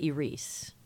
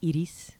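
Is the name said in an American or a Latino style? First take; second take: American; Latino. First: The name is said in a simplified American style. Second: The name is said with a Latino-style pronunciation. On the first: "for Americans, I just say Iris"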